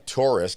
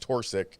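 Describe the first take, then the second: First: The name ends with the sounds 'isk'. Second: The name ends with the sounds 'sik'. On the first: This is the name's real form. The speaker calls it right. "I'm Torisk" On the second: Others got the name mixed up. The speaker calls it wrong. "called me Torsik"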